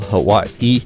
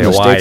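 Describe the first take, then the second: First: It is said the local Hawaiian way. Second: It is said the mainland American way. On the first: The speaker is from Hawaii. The speaker calls it right. "if you're from Hawaii, you have to say it that way" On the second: The speaker is from the mainland States. The speaker calls it wrong. "You can't say Hawaii"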